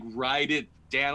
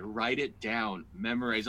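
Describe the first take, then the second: First: Louder, drawn-out insistence; insistent repeat. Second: Slow, measured directive; firm instruction. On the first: Wife repeating her advice to stubborn husband, louder and insistent. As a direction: press each word harder, slowly. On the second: Wife coaching her husband on his set, slow and firm. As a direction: lay it out slowly, word by word. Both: Retold or imitated.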